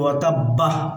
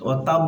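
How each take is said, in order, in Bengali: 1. শেষের ব-কে চাপ দিয়ে পড়া হয়, ফলে একটি হ ধ্বনি যুক্ত হয়। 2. শেষের ব ছোট করে পড়া হয়, এতে কোনো হ যুক্ত হয় না। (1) "ধাক্কা দিয়ে বলি" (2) "বাটা ছোট করে বলবো"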